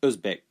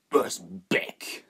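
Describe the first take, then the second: First: Said in the usual way. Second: Uzbek spat with contempt. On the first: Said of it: "said the young man". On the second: Acted. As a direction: spit the word Uzbek back in scorn. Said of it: "the smuggler spat".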